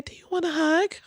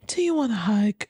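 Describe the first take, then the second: First: High sweet mock offer of a hug. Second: Said in the usual way. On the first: Streamer mocking the guest's hug offer, high and sweet. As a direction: lift it up high and sugary. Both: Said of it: "my dog is high off life".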